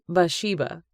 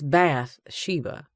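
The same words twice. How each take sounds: First: The 'th' sound is dropped from the name. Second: The 'th' of bath is said clearly. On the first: "with the T being silent" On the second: "It's Bath-sheba"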